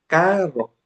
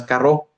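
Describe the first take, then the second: First: Carro as CA-rro, high start and falling end; stress on first syllable. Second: Carro said as ca-RRÓ, rising at the end; wrong final stress. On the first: Teacher correcting the wrong stress, first syllable emphasized. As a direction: punch a long, high CA in Carro, then drop. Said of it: "la que tiene mayor pronunciación". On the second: Teacher showing how it isn't said, final-syllable stress. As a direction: move the stress of carro onto the last syllable, RRO. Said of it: "No es carro". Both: Shown as a demonstration.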